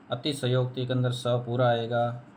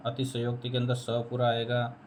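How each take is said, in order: Both takes have the same delivery.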